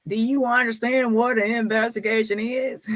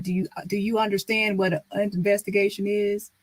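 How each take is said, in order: First: Condescending, a touch higher; mock his know-it-all question; smart-aleck quote. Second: Lightly mimicking a smug staffer; a hint of his condescending tone; impersonating Marcus. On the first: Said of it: "was being smart the last time when he said". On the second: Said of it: "trying to impersonate him".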